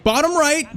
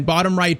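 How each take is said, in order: First: Much higher, begging the dive; urgent plea. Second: Said in the usual way. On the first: Real, not acted. Gamer urging his keeper to save, high plea. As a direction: push it up as you urge him on.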